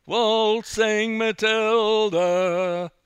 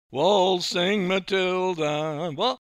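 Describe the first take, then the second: First: Sung, very loud, high, long-held song line; sung, belt it out slowly, off key; off-key singing. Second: Loud, high, slow singing, cut short; sung, belt out the opening, then break off; sung, bursting into song. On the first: Frightened amateur singing to the youths, off-key belting. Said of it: "you're a bit off key". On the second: Narrator singing for the youths after a prod, bursting into song. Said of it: "I burst into song". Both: Acted.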